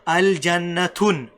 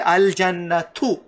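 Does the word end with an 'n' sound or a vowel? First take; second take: 'n' sound; vowel. First: The word ends with an added 'n' sound. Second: The word ends on a short vowel, no 'n'. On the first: The speaker calls it wrong. "you can't say al jannatun. No, that's wrong" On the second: The speaker calls it right. "it's only one dhamma"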